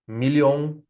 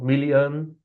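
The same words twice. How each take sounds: First: The last vowel is a clear O sound. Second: The last vowel is a weak uh sound. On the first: The speaker calls it wrong. "No American says million, billion with O sound" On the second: The speaker calls it right. "it is pronounced with a sound"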